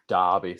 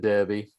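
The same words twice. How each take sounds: First: The first vowel sounds like 'ar' in 'car'. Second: The first vowel sounds like 'er' in 'her'.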